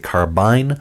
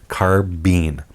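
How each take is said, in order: First: It is said the way British speakers say it. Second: It is said the way American speakers say it. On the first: "Folks across the big water tend to say carbine" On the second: "most in North America, or at least the United States, say carbine"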